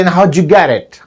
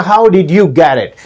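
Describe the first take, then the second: First: "how'd you get it" as howdju geddit; squeezed native blend. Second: "how did you get it" with did fully sounded; separate words. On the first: Teacher showing what natives say, blended. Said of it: "they say". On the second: Teacher showing what natives don't say, fully worded. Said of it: "they don't speak the". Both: Shown as a demonstration.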